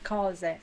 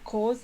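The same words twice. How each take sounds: First: The O vowel is pronounced open. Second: The O vowel is pronounced closed. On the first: The speaker calls it right. "So it's an open O" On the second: The speaker calls it wrong. "It's not cose"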